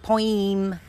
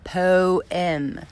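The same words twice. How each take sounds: First: The word is said the speaker's own odd way. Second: The word is said the usual, standard way. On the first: The speaker calls it wrong. "not poem" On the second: The speaker calls it right. "say poem, poem"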